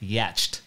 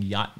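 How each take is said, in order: First: The word is said in an odd, affected pronunciation. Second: The word is said in its ordinary pronunciation. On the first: A very rich person owns it. "you're so rich you don't have to pronounce it correctly" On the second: An ordinary person owns it. "you're not pronouncing yacht anymore"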